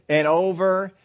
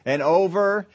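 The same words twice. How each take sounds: The two takes are said the same way.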